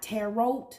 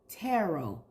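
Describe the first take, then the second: First: The final T is pronounced. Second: The final T is silent. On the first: The speaker calls it wrong. "it is pronounced not tarot" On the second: The speaker calls it right. "It is tarot. Tarot. The T is silent"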